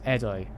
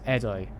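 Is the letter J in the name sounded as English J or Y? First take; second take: Y; Y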